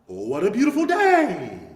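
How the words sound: The pitch moves from low to high.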